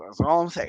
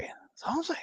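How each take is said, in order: First: Said in the usual way. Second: High, breathy whisper repeating the line. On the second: Shown as a demonstration. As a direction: whisper it suggestively.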